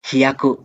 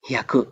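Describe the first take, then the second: First: Hi and ya are said as two separate syllables. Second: Hi and ya merge into one syllable, hya. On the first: "ಇಲ್ಲೆಲ್ಲದು ಒಂದೇ ಸೈಜ್ ಅಕ್ಷರ ಇದೆ" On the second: "ಹ್ಯಾ, ಒಂದು ಇದೊಂದು ಸೌಂಡು"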